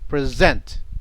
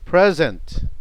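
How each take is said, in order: First: The stress is on the second syllable. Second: The stress is on the first syllable. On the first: It is a verb meaning to show. "present as a verb. Stress is on the where? Second" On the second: It is a noun meaning a gift. "The present as a noun, the stress is on the pre"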